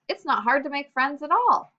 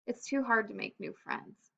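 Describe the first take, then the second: First: Higher, louder, reassured exclamation; voicing a child who has lost her shyness; newly confident. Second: Softly voiced, timid worry; quiet, mildly scared child's thought; shy. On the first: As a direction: lift it up with relief. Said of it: "let's listen to what she says". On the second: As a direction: say it small, like a nervous newcomer. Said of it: "She's feeling really shy".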